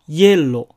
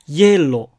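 No difference in how they are said.

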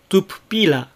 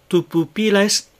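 First: The vowel in the first pu is devoiced. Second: Every u vowel is clearly voiced. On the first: The speaker calls it wrong. "pupila の最初のぷのうが無声化して" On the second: The speaker calls it right. "いずれのうもはっきりと声を出して発音してください"

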